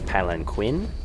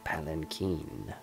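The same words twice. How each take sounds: First: The 'qu' is said with a hard Q sound. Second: The 'qu' is said without a hard Q sound. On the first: The speaker calls it wrong. "with that hard Q sound" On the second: The speaker calls it right. "I actually had to look up a pronunciation of this word"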